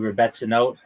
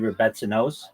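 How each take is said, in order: First: It is said with a final t sound. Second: It is said with a final s sound.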